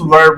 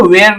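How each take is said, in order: First: "were" said short as wər, no glide, with a falling tune; "were" read right, short and clipped to wər; correct reading. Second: "where" said like the place word, a clear wh glide and long open vowel; "where" read wrongly, as teacher shows the mistake to avoid. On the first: Teacher gives the right way: "were" said short as wər. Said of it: "were बोलेंगे". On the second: Teacher shows the wrong way: "where" said as the place word. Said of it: "इसको where नहीं पढ़ना है". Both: Shown as a demonstration.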